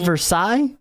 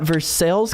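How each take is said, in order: First: Some letters of the name are left silent. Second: Every letter of the name is sounded. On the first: This is the original way of saying the name. The speaker calls it right. "when it's supposed to be Versailles" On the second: This is the local way of saying the town's name. The speaker calls it wrong. "we pronounce every letter in Versailles pretty much"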